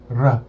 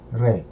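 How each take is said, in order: First: "r" said hard, with an "uh" sound; hard consonant on "r". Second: "re" softened, with an "eh" sound; soft consonant on "re". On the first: Learner contrasting the two sounds, hard R. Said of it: "instead of saying r". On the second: Learner contrasting the two sounds, soft R. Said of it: "I say re". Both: Shown as a demonstration.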